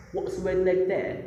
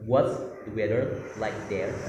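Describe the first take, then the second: First: Put-on What's the weather like there said higher, in a polished British accent; British accent imitation. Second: Said in the usual way. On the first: Contrasting how she actually said it, in a British accent. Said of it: "Tapi dia bilangnya". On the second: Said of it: "Itu artinya kan".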